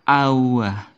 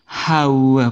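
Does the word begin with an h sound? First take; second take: no; yes. First: The word begins with a vowel sound. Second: The word begins with an h sound. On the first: The speaker calls it right. "Tapi awa" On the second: The speaker calls it wrong. "Bukan hawa, bukan"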